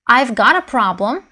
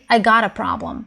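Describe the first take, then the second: First: The v sound before got is pronounced. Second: The v sound before got is dropped. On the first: "instead of" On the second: "people may drop the v part"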